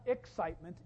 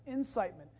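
First: "excitement" with its opening EX punched; contrastive stress on first syllable. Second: "incitement" with its opening IN punched; contrastive stress on first syllable. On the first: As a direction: set "excitement" apart by stressing the EX. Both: Shown as a demonstration. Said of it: "not excitement, incitement".

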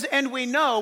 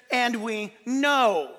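First: Said in the usual way. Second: "And we know" slowed right down, leaning hard on "know"; slow stress on know. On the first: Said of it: "when it says". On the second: Shown as a demonstration. Pastor stressing scripture to church, slow and weighty on "know". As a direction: draw out "know" slowly, with weight. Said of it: "we really stressed the word know".

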